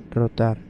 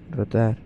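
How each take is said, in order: Both takes have the same delivery.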